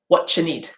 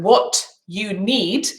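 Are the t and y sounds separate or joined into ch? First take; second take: joined; separate. First: The t and y merge into a ch sound. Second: The t and y sounds stay separate. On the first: "will become" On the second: "my t sound is here... And my y sound is here"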